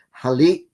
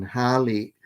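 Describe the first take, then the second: First: Short first syllable, punched final LI in "hali"; final-syllable stress. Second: Verb-root accent, HA-li; first-syllable stress. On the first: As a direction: say "hali" with the accent on LI, ha-LI. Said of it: "accent on the final syllable". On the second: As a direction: say "hali" with the stress on HA, final syllable unstressed. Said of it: "put the accent on the final syllable". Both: Shown as a demonstration.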